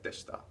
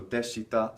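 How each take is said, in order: First: "deshita" said as desh-ta; "deshita" in two beats, the short i silent; dropped i. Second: "deshita" with the i fully sounded; "deshita" spelled-out, the shi pronounced with its vowel; full vowel. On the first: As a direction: swallow the i in "deshita", leaving just sh before ta. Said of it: "deshita sounds like deshita". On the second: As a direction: say "deshita" in three clear syllables, de-shi-ta. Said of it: "short vowel E really drops away". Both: Shown as a demonstration.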